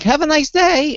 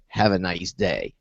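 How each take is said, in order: First: It is said in a friendly, pleasant tone. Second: It is said in a menacing, threatening tone. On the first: A sincere good wish. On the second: Something bad is meant for the listener.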